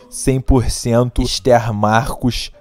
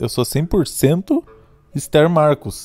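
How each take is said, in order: First: It is said in a Rio de Janeiro accent. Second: It is said in the speaker's usual accent.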